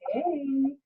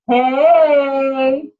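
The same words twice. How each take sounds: First: It is said quietly, at close range. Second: It is called out loudly, projected far.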